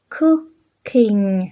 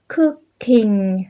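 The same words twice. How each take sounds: The two takes are said the same way.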